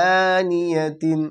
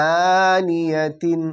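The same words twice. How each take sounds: The two takes are said the same way.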